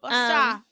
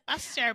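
First: It is said with an Australian accent. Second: It is said with an American accent. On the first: The speaker calls it right. "But Busta. That's cute" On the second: The speaker calls it wrong. "It would sound so disgusting in, like, an American accent"

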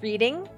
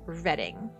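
First: It sounds like the verb reading. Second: It sounds different from the verb reading. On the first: This is the common mistaken pronunciation. The speaker calls it wrong. "Everybody thinks it's Reading. It is spelled like you are reading a book" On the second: This is how locals actually say it. The speaker calls it right. "but it is said Reading"

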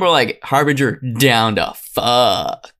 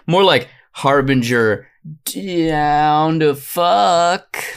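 First: The joke is delivered with full confidence. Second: The joke is delivered hesitantly, like a stretch.

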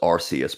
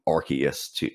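First: The first syllable sounds like 'arse'. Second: The first syllable does not sound like 'arse'. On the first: This is the original pronunciation. "the original pronunciation was Arceus, but they changed it because of in the UK, the word arse" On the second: This is the changed pronunciation. "they changed it phonetically to become Arceus so that people don't have that word in there"

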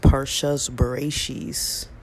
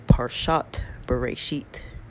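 First: The words end with s sounds. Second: The words end with t sounds.

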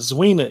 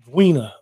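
First: The name starts with a soft z sound. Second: The name starts with a hard d-like sound. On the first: The speaker calls it wrong. "It's not ZWEENA" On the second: The speaker calls it right. "like a D. Like a full sound"

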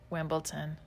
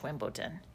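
First: The word is said in a plain, normal voice. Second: The word is said in a funny, put-on voice.

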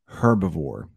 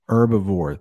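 First: The word begins with an audible H sound. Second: The word begins without an H sound. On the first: "If you go to the southern part of the United States, they actually might they might pronounce that H" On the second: "The H is silent"

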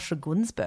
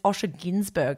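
First: The surname starts with a 'gun' sound. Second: The surname starts with a 'gin' sound. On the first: The speaker calls it wrong. "not Osha Gunsberg" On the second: The speaker calls it right. "it's Osha Ginsberg"

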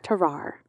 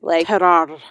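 First: The name is said with plain English R sounds. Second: The name is said with a rolled French R. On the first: "I'm going to say Tarar because, you know, he's French and that's not my language" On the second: "there's more of a rolling your R"

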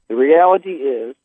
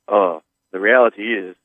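First: It is read in the speaker's ordinary voice. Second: It is read in a deep imitated voice. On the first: The speaker calls it wrong. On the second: The speaker calls it right.

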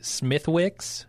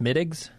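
First: The name is said the way it looks. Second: The name is said like 'Smittigs'. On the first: The speaker calls it wrong. "we would say Smithwicks" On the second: The speaker calls it right. "it's actually pronounced Smittigs"

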